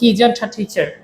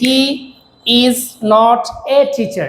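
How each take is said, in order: First: The words are run together in one flow. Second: Each word is said separately, broken apart. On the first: The speaker calls it right. "এভাবে না বলে আমরা বলতে পারি" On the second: The speaker calls it wrong. "আমরা এখানে কতগুলা মানে ভাঙতেছি, এক তিনটা ওয়ার্ডকে তিন ভাবে বলতেছি"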